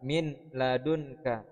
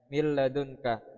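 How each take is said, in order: First: The n is pronounced before the l. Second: The n merges fully into a doubled l. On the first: "Tulisan aslinya adalah min ladunka" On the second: "suara nun melebur, ya, menjadi huruf lam"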